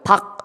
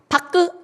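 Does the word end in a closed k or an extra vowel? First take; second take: closed k; extra vowel. First: The word ends in an unreleased k. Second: The final k is released with a vowel. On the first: The speaker calls it right. "박 이래야지" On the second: The speaker calls it wrong. "바크 이럴 거예요"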